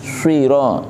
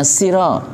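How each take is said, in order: First: The first consonant is heavy, with rounded lips. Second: The first consonant is light, with spread lips. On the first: The speaker calls it right. "untuk short harus moncong, karena hurufnya isti'la" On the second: The speaker calls it wrong. "Jangan hanya siro, siro itu sin"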